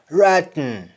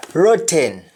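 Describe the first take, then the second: First: Sung, ROTTEN as "raat-n"; sung, Jamaican open "ah" in ROTTEN; Jamaican humming. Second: ROTTEN as "ro-ten"; full last vowel in ROTTEN; English-style round O in ROTTEN; English pronunciation. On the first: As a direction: hum the end of ROTTEN. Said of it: "That is harming". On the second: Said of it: "we don't say happen". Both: Shown as a demonstration.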